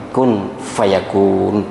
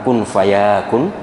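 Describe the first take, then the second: First: The vowel after the y is kept short. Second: The vowel after the y is drawn out long. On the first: The speaker calls it right. "tapi kun fayakun" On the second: The speaker calls it wrong. "Ya-nya jangan panjang, bukan kun fayakun"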